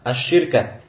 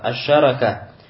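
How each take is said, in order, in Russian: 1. Гласная «i» после sh и никакой гласной после r. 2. Гласная «a» после sh и «a» после r. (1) "с касрой под шин и с сукуном над ра" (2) "С фатхой как над шин, так и над ра"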